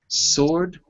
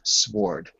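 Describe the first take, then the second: First: The W is silent, like sord. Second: The W is pronounced before the O. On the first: The speaker calls it right. "you could spell it S O R D and it would sound precisely the same" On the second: The speaker calls it wrong.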